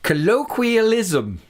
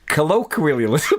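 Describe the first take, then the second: First: It is said in a put-on posh accent. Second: It is said in a plain, everyday accent.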